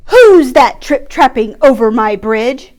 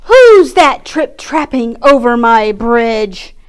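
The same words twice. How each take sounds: First: Loud troll bellow; booming troll shout. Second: Slow, loud howling troll; slow booming howl. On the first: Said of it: "shouted the nasty troll". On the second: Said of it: "howled the greedy troll". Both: Acted.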